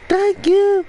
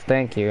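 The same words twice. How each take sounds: First: It is yelled loudly. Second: It is said at a normal volume.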